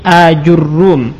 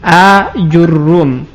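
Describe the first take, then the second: First: Long first a, then ju, then a doubled r. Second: Long first a, then ju, then a doubled r.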